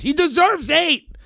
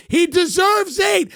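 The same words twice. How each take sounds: First: Raised rant. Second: Shouted rant. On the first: Fan defending his podcaster to his wife, rising rant. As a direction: voice pitched up, building toward a yell. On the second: Fan insisting his podcaster deserves more houses, shouting. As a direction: hammer it out like a zealot. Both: Acted.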